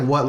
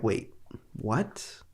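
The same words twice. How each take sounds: First: Lightly acted amused what; quick what, as if at funny nonsense; amused disbelief. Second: Quiet, let-down puzzlement; unamused confusion. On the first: Viewer reacting to crazy nonsense that's funny, lightly amused. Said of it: "And not like". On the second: Retold or imitated. Viewer reacting to a one-liner that falls flat, quietly baffled. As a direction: drop to a soft, baffled question. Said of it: "It's more just like, "No, like".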